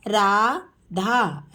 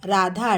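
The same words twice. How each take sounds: First: Radha stretched very slowly; slow teacher model of Radha. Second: Said in the usual way. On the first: Shown as a demonstration. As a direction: draw Radha out sound by sound. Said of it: "teacher models name slowly". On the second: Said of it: "quick plain repeat".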